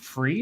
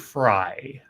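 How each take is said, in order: First: The name ends with an 'ee' vowel. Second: The name ends with an 'eye' vowel. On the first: "is it Free or Fry?" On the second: "is it Free or Fry?"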